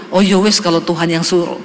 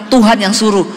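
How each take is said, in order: First: Menirukan suami dengan nada lebih rendah, ringan; "ya wes" diucapkan santai dan pasrah ala Jawa; suami yang pasrah. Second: Said in the usual way. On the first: Retold or imitated. (suami mengalah pada istri, nada rendah dan pasrah)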